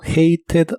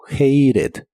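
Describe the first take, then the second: First: The middle consonant is a clear t sound. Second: The middle consonant is a quick r-like flap.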